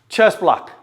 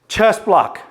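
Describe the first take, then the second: Both takes have the same delivery.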